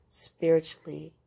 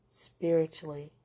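No difference in how they are said.

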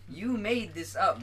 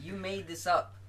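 First: You made this up, slowed and pressed louder; slower emphatic repeat. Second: Said in the usual way. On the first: Retold or imitated. Scolding his brain for the nightmare, slow and emphatic. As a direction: lean on You, drawn out and insistent.

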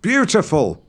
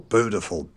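First: "beautiful" as "byoo-tiful", higher; standard pronunciation. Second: "beautiful" as "boo-tiful", no y sound; yod-dropped pronunciation. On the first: Shown as a demonstration. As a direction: insist on the y in "beautiful". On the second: Retold or imitated. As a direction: drop the y in "beautiful". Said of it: "every time he said".

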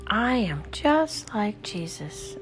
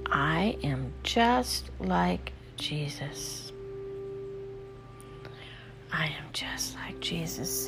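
First: Spoken aloud, slow and higher; voiced affirmation. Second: Slow whispered affirmation. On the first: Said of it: "Use your voice". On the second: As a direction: breathe the words out in a whisper. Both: Shown as a demonstration.

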